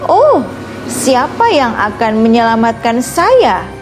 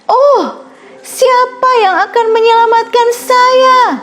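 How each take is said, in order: First: It is said in a soft, quiet voice. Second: It is said as loud as possible.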